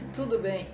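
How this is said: It sounds annoyed, contradicting the literal words. Things are actually not fine. "você está aborrecido"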